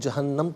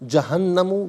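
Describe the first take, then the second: First: The word ends on the m sound. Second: The word ends with a short u vowel. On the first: The reading stops at this word. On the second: The reading continues without stopping.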